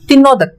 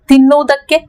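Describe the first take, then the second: First: The word ends with the final syllable dropped. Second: The word ends with the full final syllable.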